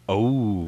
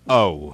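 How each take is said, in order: First: It sounds loving, like being in love. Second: It sounds dismayed, like falling in mud.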